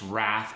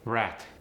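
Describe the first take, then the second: First: It ends with a th sound. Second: It ends with a t sound. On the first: "The voiceless T H" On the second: "can also go to a T"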